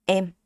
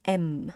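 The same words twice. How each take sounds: First: "M" short, straight and very clear; Vietnamese M. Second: "M" as in English, longer. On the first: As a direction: say "M" short and flat. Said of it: "is Vietnamese". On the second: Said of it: "is English". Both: Shown as a demonstration.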